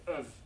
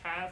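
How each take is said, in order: First: The word is reduced, with no h sound. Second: The word is said fully with its h sound. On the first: The speaker calls it right. "we say of in a weak form" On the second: The speaker calls it wrong. "We don't say have"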